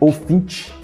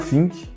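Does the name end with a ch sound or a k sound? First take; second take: ch sound; k sound. First: The name ends with a ch sound. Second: The name ends with a k sound. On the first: The speaker calls it right. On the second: The speaker calls it wrong.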